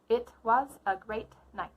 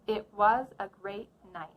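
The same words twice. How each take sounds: First: The final T sounds are fully released and choppy. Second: The final T sounds are held, not released. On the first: The speaker calls it wrong. "The first version sounded a little bit choppy because I was using the true T" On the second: The speaker calls it right. "Listen again for the held T"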